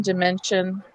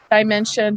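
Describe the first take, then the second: First: "dimension" starting with a short "di", as in "did"; short first vowel in "dimension"; short-I pronunciation. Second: "dimension" starting like the word "die"; first syllable of "dimension" rhymes with "eye"; long-I pronunciation. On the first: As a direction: say "dimension" as dih-MEN-shun. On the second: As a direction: say "dimension" as die-MEN-shun. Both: Shown as a demonstration. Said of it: "We should either try di or die".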